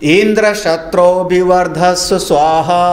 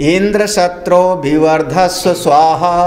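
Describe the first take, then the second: The two takes are said the same way.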